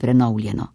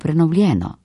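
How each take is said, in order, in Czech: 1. Přízvuk padá na jinou samohlásku než e. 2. Přízvuk padá na samohlásku e. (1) "ne prenovljeno" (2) "V tem primeru ostaja naglas vedno na istem samoglasniku, e"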